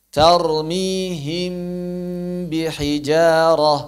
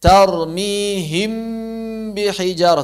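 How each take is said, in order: First: Tarmihim bihijarah slow with a light, short mim, no pressed nasal; correct light ikhfa. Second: Tarmihim bihijarah with a long nasal hum on the mim, slow and raised; wrong overdone nasal. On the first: Teacher models correct light mim ikhfa for students, slow and gentle. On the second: Teacher shows students the wrong heavy nasal ikhfa, slow. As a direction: drag the mim of Tarmihim through the nose. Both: Shown as a demonstration.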